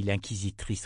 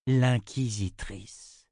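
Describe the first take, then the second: First: Said in the usual way. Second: Slow musing echo. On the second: A narrator's reading. Narrator echoes the word, musing.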